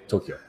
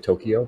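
First: It is said the Japanese way. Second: It is said the English way.

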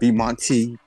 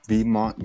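First: The name ends with an extra ee sound. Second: The name ends sharply on the t sound. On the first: The speaker calls it wrong. "Not B-Monty" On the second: The speaker calls it right. "Get it right the first time"

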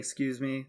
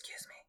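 First: It is said out loud proudly. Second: It is whispered quietly.

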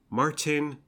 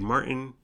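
First: The T in the middle is clearly pronounced. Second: The T in the middle is dropped. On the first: The speaker calls it right. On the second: The speaker calls it wrong.

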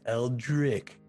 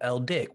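First: The name is said slowly. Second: The name is said quickly. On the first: "When you say it slow" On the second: "When you say it fast"

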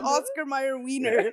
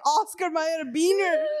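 First: The last word begins with a W sound. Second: The last word begins with a B sound. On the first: This is the brand name as printed. "on the label it says wiener" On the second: This is how the parents said it. "her parents are like"

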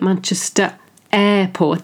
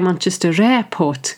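First: A small stop separates the two words. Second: An R sound links the two words. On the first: "There's a kind of stop" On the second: "So they put R to help the flow"

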